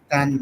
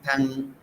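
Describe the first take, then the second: First: "tan" ending in a nasal ng, as in tang; tan with added G. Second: "tan" ending in a plain n; tan without G. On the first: Teacher showing the altered word to learners, "tan" with ng. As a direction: say "tan" with the G closing it. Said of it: "We add G now to make it tan". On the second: Teacher contrasting the unaltered word, "tan" with plain n. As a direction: say "tan" with no ng at the end. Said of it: "this is tan now, not tan". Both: Shown as a demonstration.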